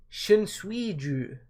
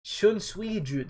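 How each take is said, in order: First: Shunsuiju spelled out syllable by syllable, very slow; careful slow try. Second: Shunsuiju again very slow, falling at the end; second slow try. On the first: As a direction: sound out Shunsuiju carefully, like a new name. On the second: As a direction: have another go at Shunsuiju, slowly and with more certainty. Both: Shown as a demonstration. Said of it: "That's just a hard name to say".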